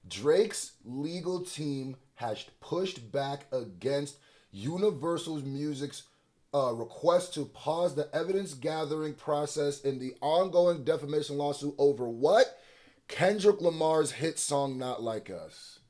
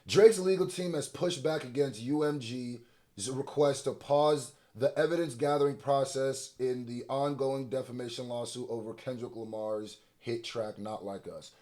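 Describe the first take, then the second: First: It is read slowly. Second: It is read at normal speed.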